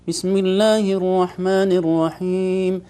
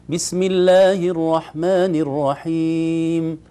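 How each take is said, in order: First: The whole recitation sounds nasal throughout. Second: The recitation sounds clear, not nasal. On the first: The speaker calls it wrong. "القراءة من الخيشوم" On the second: The speaker calls it right. "القراءة كلها خرجت من الفم ما عدا الغنة تخرج من الأنف"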